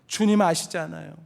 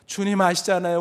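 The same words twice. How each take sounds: First: It is said while openly sobbing. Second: It is said in a voice near tears. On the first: He has broken down in tears. "울음을 터뜨리며 대답했을지 모릅니다" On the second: He is starting to cry. "울먹거리기 시작합니다"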